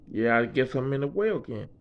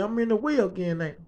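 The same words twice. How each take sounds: First: Low, soft, deflated admission; resigned. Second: Said in the usual way. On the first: Retold or imitated. Scolded boss giving in to his worker, resigned. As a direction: act out a boss backing down quietly.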